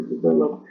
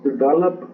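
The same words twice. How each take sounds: First: Develop repeated softer while searching for the Spanish word; English word repeated. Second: Develop said in English as a quick word search; saying develop the English way. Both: Shown as a demonstration. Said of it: "¿cómo se dice?".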